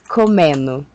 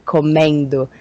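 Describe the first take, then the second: First: The d sound is dropped from the ending. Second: The d sound is pronounced in the ending. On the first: "I will eat the D" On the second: "I will not say comendo"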